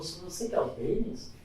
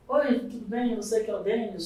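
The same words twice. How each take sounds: First: Softer, taken-aback check of identity; understated disbelief, hushed; imitated doubtful question. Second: Friendly higher-pitched phone greeting; a hint of an upbeat caller; lightly voiced eager caller. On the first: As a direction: ask as if hoping it is someone else. Recruiter taken aback seeing him. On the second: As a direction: play a keen recruiter opening a call.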